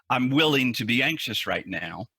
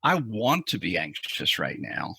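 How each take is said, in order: First: Merely willing. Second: Truly wanting. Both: Shown as a demonstration. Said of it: "you hear that subtle difference".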